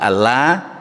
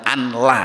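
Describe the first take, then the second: First: The n merges into the l, giving a doubled l. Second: The n is pronounced separately before the l. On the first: The speaker calls it right. "niku kan idgham bila gunnya, nun ketemu lam" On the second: The speaker calls it wrong. "Jadi bukan anla"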